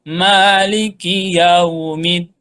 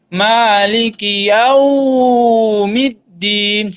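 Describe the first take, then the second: First: The 'yau' sound is kept short. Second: The 'yau' sound is held very long. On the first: The speaker calls it right. "Yang betul adalah" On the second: The speaker calls it wrong. "Jangan terlalu panjang sekali. ... Salah"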